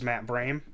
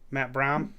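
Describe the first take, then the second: First: The surname has an 'ay' vowel, like 'game'. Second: The surname has an 'ah' vowel, like 'mom'. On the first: The speaker calls it wrong. "I thought was Matt Brame, but apparently not" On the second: The speaker calls it right. "it's Brom according to his own team's"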